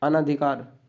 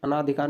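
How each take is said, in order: First: अनधिकार with a short अ after अन; अनधिकार said anadhikaar, no long aa; correct form. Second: अनाधिकार with a long आ after अन; अनाधिकार said anaadhikaar with a long aa; wrong form. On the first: Teacher giving the right spelling अनधिकार. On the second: Teacher reading the wrong form अनाधिकार. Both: Shown as a demonstration. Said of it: "अनाधिकार नहीं होता".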